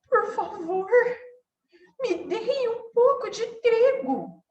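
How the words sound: The voice sounds scared and timid. The speaker feels afraid. "E se ela tivesse com medo?"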